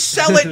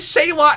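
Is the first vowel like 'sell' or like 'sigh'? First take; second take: sell; sigh. First: The first syllable sounds like 'sell'. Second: The first syllable sounds like 'sigh'. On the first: The speaker calls it wrong. "he says sell it" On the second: The speaker calls it right. "She says Sailot"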